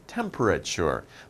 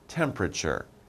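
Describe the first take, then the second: First: Every syllable is said fully, as spelled. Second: Some syllables are shortened or dropped. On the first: It helps to remember the spelling. "I pronounce it temperature to remember the spelling" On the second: This is how it is normally said. "but pronunciation"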